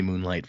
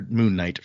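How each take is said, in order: First: "Moonlight" said as one word, the usual light; the slip "Moonlight" before correcting; slip of the tongue. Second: "Moon Knight" said slowly, both words clear with a break before Knight; careful fix to "Moon Knight"; correction. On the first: Host misnames Seth's look, quick plain slip. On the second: Host corrects herself to Dak, slow careful correction. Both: Real, not acted. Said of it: "Moon Knight for Dak".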